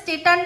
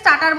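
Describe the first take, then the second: First: The first vowel sounds like 'ay' in 'state'. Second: The first vowel sounds like 'ar' in 'star'. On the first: The speaker calls it wrong. "স্টার্টারকে কি যেন একটা স্টেটার না কি বললো" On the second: The speaker calls it right. "স্টার্টারকে স্টার্টার বলতে পারে না"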